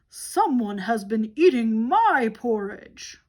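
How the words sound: It is said in a great big voice.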